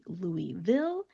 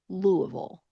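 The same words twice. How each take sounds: First: It is said clearly, as Louis plus ville. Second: It is mumbled with a nearly closed mouth. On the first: This is how an outsider reads the spelling. "so you would think it would be Louisville" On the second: This is how a local from Kentucky says it. "my mouth is very much more closed when I'm saying this"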